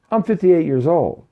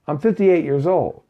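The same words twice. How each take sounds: The two takes are said the same way.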